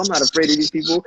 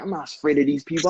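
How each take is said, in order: First: Louder and faster the second time; rising mock defiance; defiant repeat. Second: Said in the usual way. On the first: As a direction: push the line harder, fired up. Quoting a dancer's defiance.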